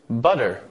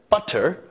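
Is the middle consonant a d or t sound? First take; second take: d; t. First: The middle consonant is a d sound. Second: The middle consonant is a t sound. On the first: "changing the T sound to a D sound" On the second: "rather than butter"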